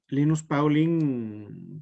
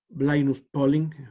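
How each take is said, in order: First: The name is said with Spanish pronunciation. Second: The name is said with English pronunciation.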